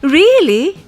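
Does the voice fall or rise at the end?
fall. The voice falls at the end. It is a statement. "in a statement"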